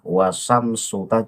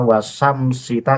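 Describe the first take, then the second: First: The vowel after 'wasams' is u. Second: The vowel after 'wasams' is i. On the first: The word is the subject of the sentence. The speaker calls it right. "harusnya dibaca domah" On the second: The grammatical role of the word changes, altering the meaning. The speaker calls it wrong. "dibaca kasroh"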